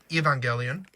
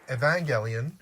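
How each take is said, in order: First: The first E is said as a long vowel. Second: The middle syllables carry the stress. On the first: "pronouncing the hard E at the front" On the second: "putting the emphasis on the sort of middle syllables"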